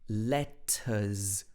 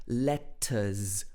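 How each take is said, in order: Both takes have the same delivery.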